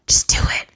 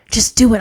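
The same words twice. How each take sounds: First: Whispered urging. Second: Voiced, firm push; firm encouraging call; urging. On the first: Acted. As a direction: breathe it like a secret push. God urging, whispered take. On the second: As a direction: urge them on out loud. God urging, voiced take.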